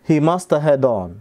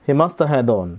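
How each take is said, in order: No difference in how they are said.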